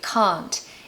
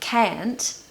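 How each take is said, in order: First: It has a long 'ah' vowel, like car. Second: It is in an American accent. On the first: "in the received pronunciation British accent, we say can't" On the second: "in America, they say can't"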